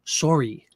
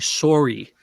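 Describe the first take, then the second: First: The first syllable sounds like the word 'sore'. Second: The first syllable sounds like the word 'sore'.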